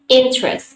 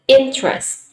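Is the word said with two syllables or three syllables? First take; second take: two syllables; two syllables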